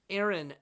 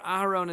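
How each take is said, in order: First: The name is said with English pronunciation. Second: The name is said with Hebrew pronunciation.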